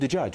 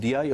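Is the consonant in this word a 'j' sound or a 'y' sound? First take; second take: j sound; y sound. First: The word is said with 'j' sounds. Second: The word is said with 'y' sounds. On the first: This is how the other dialect group says it. "هم يقولون دجاج" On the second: This is how the speaker's own Kuwaiti group says it. "احنا نقول دياي"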